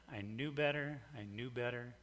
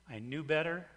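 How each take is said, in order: First: Fading. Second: Said in the usual way. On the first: Shown as a demonstration.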